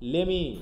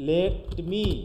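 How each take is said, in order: First: The two words are run together into one. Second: The two words are said separately and clearly. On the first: "হয়ে যায় কি লেমি" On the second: "যদি আমি একসাথে উচ্চারণ করতে চাই"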